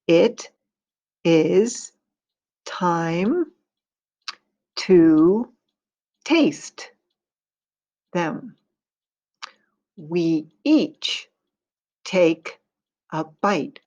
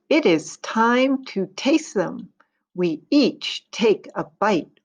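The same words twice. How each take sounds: First: It is read at a slower pace. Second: It is read at a faster pace.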